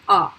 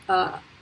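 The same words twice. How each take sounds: First: The vowel is tense and crisp. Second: The vowel is relaxed and loose. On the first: The speaker calls it right. "They are tense" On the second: The speaker calls it wrong. "It's not a"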